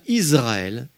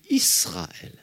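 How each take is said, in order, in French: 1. Le s est voisé, il sonne comme un z. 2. Le s est non voisé, il sonne comme un s. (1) "je ne dis pas Israël" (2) "mais je dis Israël"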